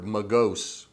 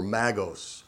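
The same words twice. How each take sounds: First: "magos" with weak first vowel, muh-GOHS; alternative pronunciation. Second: "magos" with flat a, MAG-ohs; "magos" opening on the a of "mag"; alternative pronunciation. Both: Shown as a demonstration. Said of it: "however you want to pronounce it".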